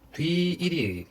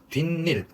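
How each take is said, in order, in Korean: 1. ㄴ 소리가 덧나지 않아요. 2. ㄴ 소리가 덧나요. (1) "뒤일이 아니라" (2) "니은이 첨가되니까"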